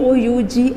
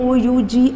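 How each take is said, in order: The two takes are said the same way.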